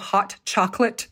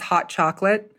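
First: The T is clearly pronounced. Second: The T is dropped, American style.

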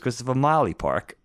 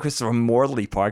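First: The r in Morley is dropped, like Molly. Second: The r in Morley is clearly pronounced. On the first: This is how people locally called the park. "almost sounds like a Boston accent" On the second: This is the park's actual name. "It wasn't Christopher Morley Park"

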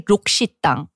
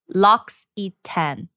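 First: The name has a 'shi' sound and ends in 'tang'. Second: The name has a 'si' sound and ends in 'tan'. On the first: This is how Koreans say the name. The speaker calls it wrong. "Koreans say Lokshitang" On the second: This is how commenters said the name should be said. The speaker calls it right. "everyone went to town on me telling me that it's L'Occitane"

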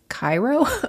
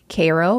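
First: It is said with the usual, widespread pronunciation. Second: It is said with the local town pronunciation. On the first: This is how the name is said elsewhere. "the actual name is Cairo" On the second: This is how locals say the town's name. "my best friend lives in Cairo"

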